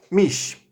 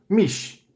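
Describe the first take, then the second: First: "Mish" repeated as a model for the class; repeating mish. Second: "mish" said slowly and clearly as a model; pronouncing mish. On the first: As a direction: say "Mish" again, clear and steady. (repetição de "Mish") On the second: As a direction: sound out "mish" for the student. (pronúncia modelo de "mish") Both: Shown as a demonstration.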